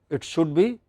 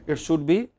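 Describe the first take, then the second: The two takes are said the same way.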